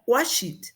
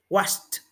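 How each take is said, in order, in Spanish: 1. La palabra termina con una sílaba extra 'id'. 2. La palabra termina en un sonido T.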